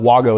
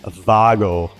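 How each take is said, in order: First: The name begins with a W sound. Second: The name begins with a V sound. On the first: This is the everyday pronunciation. "Wago is how you say it" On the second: This is the original German pronunciation. "It's actually Vago because it's German"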